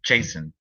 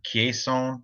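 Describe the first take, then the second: First: The name begins without a hard K sound. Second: The name begins with a hard K sound.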